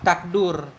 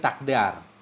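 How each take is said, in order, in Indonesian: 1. Vokal setelah d adalah u. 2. Vokal setelah d adalah a. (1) "Wa dhammihi atau dhammah dal" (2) "Dengan fathahnya dal"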